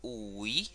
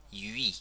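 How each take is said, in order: First: UI with a Spanish u, as "oo-ee"; UI sbagliato. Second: YUI with French u, slowly drawn out; YUI corretto. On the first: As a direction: show UI the Spanish way, to be avoided. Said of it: "No vamos a decir ui". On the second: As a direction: stretch YUI slowly as the right sound. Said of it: "sino yui". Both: Shown as a demonstration.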